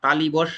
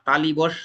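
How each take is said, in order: First: The second syllable is said as 'li'. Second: The same.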